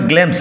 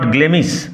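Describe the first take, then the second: First: The name is said as one syllable. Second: The name is said as two syllables. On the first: The speaker calls it right. "উচ্চারণ হবে গ্লেমস" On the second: The speaker calls it wrong. "Not গ্লেমিস"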